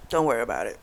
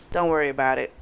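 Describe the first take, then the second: First: Softer, lower, giving up; a quiet, resigned echo; shut-down repeat. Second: Said in the usual way. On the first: Retold or imitated. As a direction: let the repeat die away, done with it. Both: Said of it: "she completely shut down".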